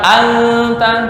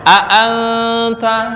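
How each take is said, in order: First: The glottal stop is dropped and the vowels merge. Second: A glottal stop separates the two vowels. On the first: The speaker calls it wrong. "Nggak boleh dibaca anta, nggak bisa" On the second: The speaker calls it right. "Nggak boleh dibaca anta, nggak bisa"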